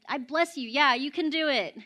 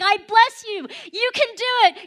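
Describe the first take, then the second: First: It is said calmly, without much passion. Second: It is said with strong passion.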